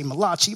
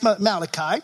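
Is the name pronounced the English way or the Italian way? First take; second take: Italian; English. First: The name is pronounced with an Italian accent. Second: The name is pronounced with an English accent. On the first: The speaker calls it wrong. "If you're Italian, you would say Malachi. But it's not Malachi" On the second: The speaker calls it right. "It's Malachi"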